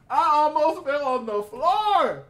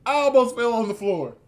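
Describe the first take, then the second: First: High, slow, loud and drawn out; dramatic excitement. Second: Excited. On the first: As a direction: stretch it out in amazed delight. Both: Real, not acted. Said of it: "repeat said bigger".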